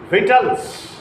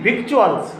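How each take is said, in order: First: The word is said short, like vitals. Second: The word is said as spelled, like vick-choo-uls. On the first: The speaker calls it right. "not victuals, vitals" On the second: The speaker calls it wrong. "It is apparently victuals"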